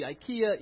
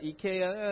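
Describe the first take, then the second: First: "ikea" said eye-KEE-uh; wrong pronunciation. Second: "ikea" said ee-KAY-uh; correct pronunciation. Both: Shown as a demonstration. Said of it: "See, ikea, ikea".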